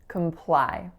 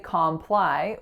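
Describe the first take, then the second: First: The first vowel is a reduced schwa sound. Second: The first vowel is a full 'o' sound. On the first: The speaker calls it right. "we make that a schwa" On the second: The speaker calls it wrong. "we don't say comply"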